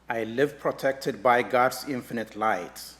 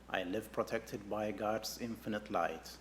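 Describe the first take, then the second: First: It is spoken in a loud voice. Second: It is spoken in a soft voice. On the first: "first in a loud voice" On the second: "A little softer now"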